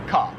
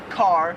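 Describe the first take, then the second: First: "ka" with no R, open "kah"; Australian dropped R. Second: "car" with the R fully sounded; American R. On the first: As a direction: let "ka" end on the vowel. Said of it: "they hardly say the R". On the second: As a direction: hold a hard R on "car". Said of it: "we would say car". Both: Shown as a demonstration.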